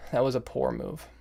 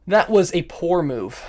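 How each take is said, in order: First: Softer, muted verdict; subdued self-criticism. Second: Slow, higher-pitched verdict; emphatic self-criticism. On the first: Chess player repeating the verdict to self, subdued. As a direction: say it softly to yourself. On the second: Chess player judging own blunder, emphatic self-criticism. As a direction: draw it out in raised-pitch dismay. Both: Real, not acted.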